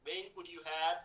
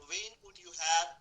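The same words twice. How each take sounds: First: Said in the usual way. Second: Slow and louder, each word stressed; slow model phrase. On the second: Shown as a demonstration. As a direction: drill it out slowly and loudly for the class. (धीरे और ज़ोर से, एक-एक शब्द पर बल) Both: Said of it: "बोलो बेटा when could you have".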